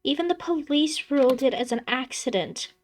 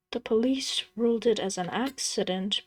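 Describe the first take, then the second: First: High, earnest plea; pleading. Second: Said in the usual way. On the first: Acted. Daughter pleads with her father, high and earnest. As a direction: beg him to believe it. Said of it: "she pleads".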